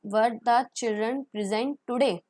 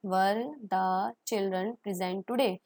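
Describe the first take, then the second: First: Slow model question. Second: Very slow repeat, rising question; slow model question. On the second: (धीरे-धीरे सवाल दोहराना) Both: Shown as a demonstration. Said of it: "model question".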